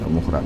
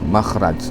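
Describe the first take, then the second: First: The first vowel is a 'u' sound. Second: The first vowel is an 'a' sound. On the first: The speaker calls it wrong. "bukan mukhraj" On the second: The speaker calls it right.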